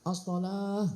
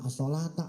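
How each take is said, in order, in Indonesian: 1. Kata itu berakhir terpotong dengan bunyi 'h'. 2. Kata itu berakhir dengan suku kata 'ta' penuh. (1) "As-sholah, as-sholah gitu" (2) "Jangan as-sholata"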